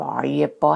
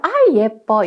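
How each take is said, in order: First: It is said in a deep, thick voice. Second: It is said in a high, light voice. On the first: The baby may hear dislike. The speaker calls it wrong. "굵은 목소리로 아 예뻐 한다거나 하면" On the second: The baby hears affection. The speaker calls it right. "이렇게 목소리 톤으로 아 예뻐 이렇게 해줘야 되는데"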